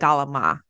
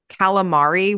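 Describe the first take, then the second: First: The word is clipped, Italian-American dialect style. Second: The word is said the standard English way. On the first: "we call it galama" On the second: "Like calamari"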